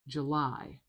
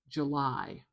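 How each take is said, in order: First: The first syllable is weak, the second strong. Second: The same.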